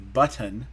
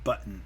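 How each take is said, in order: First: The T is a clear, released tongue tap. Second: The T is a catch in the throat. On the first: "when you really try to enunciate it to somebody" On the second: "it's in the back of the throat. It's a glottal stop"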